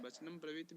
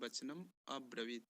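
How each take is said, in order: First: The 'a' vowel before 'bravit' is dropped. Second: A full 'a' vowel is sounded before 'bravit'. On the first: "अ थोड़ा सा निकल जा रहा है" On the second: "इसको पूर्ण कर देते हैं"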